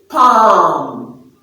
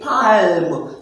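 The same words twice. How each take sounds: First: The L is silent. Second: The L is pronounced. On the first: The speaker calls it right. "So it is palm" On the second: The speaker calls it wrong. "you don't say palm. So the L is silent"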